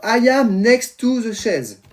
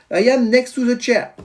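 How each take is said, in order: First: "chaise" said as the French word, slow and higher; slow, raised French-accented English ending on French "chaise"; daughter's franglais sentence. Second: Put-on higher-pitched English with a French accent, "chair" in English; careful French-accented "chair", pitched up. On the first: Retold or imitated. Daughter tries her first English sentence, "chaise" left in French. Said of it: "Et elle dit, alors". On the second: Daughter repeats the corrected English sentence, French accent. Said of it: "mon accent anglais, top".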